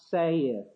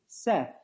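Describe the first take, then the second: First: The vowel sounds like the one in 'say'. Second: The vowel sounds like the one in 'set'. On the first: The speaker calls it wrong. "That's the Old English pronunciation, not saith" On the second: The speaker calls it right. "it is to be pronounced S-E-T-H"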